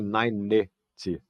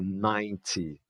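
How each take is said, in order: First: An extra vowel is sounded between n and t. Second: The n goes straight into the t. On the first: The speaker calls it wrong. "O fato é que não tem ninety" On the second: The speaker calls it right. "eu também não pronuncio esse E"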